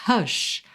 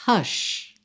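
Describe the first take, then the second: No difference in how they are said.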